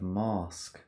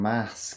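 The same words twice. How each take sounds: First: The word has a non-Northern English accent. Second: The word has a Northern or Midlands English accent. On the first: This is how the speaker used to say it. "instead of mask" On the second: The speaker's accent has shifted after living there. "I've stayed in the north slash Midlands too long. I'm saying mask"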